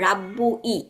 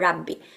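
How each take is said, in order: First: The u vowel is kept before a separate i. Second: The u vowel drops and merges into i. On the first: The speaker calls it wrong. "আমি যদি এটা উচ্চারণ করতে যাই তাহলে আমার দেখেন উচ্চারণটা কিরকম হয়" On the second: The speaker calls it right. "আমি বলবো রাব্বি"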